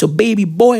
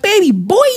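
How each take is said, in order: First: Said in the usual way. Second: High, rising disbelief; mock-shocked, voice leaping up high; incredulous echo. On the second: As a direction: squeal it up as a question, not believing a word. Incredulous echo of wife's excuse.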